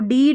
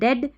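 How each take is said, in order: First: The vowel is a long ee sound. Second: The vowel is a short e sound. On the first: The speaker calls it wrong. "डीड नहीं" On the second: The speaker calls it right. "ई ए को ए pronounce कर रहे हैं"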